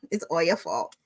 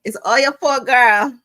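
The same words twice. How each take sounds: First: Said in the usual way. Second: Loud, high, teasing accusation; high-pitched, exuberant teasing; playful blame. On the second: Real, not acted. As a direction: belt it out in mock blame. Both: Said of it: "I love saying that".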